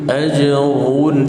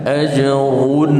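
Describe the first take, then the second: Both takes have the same delivery.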